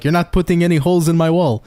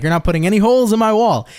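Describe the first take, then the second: First: Lightly imitated Portuguese-accented dad; a stern dad's line with a hint of Portuguese accent; mild Portuguese accent, mimicking dad. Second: Higher-pitched mock Portuguese accent; Portuguese-accented dad impression, pitched up; dad's Portuguese accent. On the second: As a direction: mimic dad laying down the law in a Portuguese accent. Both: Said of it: "With his little Portuguese accent".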